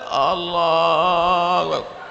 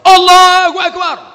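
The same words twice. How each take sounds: First: It is said weakly and feebly. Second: It is said loudly and strongly.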